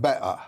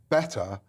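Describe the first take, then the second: First: The middle T is dropped, a glottal stop. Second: The middle T is clearly pronounced. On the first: The speaker calls it wrong. "than better" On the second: The speaker calls it right. "it's better to say better"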